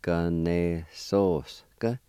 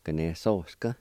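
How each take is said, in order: First: Ganesoska stretched very slowly, syllable by syllable; slow Cherokee demo. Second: Said in the usual way. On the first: Shown as a demonstration. Teacher slowing the word down for learners. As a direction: draw out Ganesoska slowly, each syllable clear. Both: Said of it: "It's pronounced like this".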